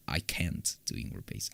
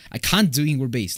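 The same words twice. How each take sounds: First: Unvoiced whisper, much softer. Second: Said in the usual way. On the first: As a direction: breathe it out as an aside. Repeating the line two ways.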